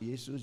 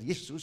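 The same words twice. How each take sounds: First: The name is called softly and gently. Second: The name is called loudly and roughly. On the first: Someone is being woken up politely. "dibangunin alus" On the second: Someone is being woken up in panic. "sampai kasar"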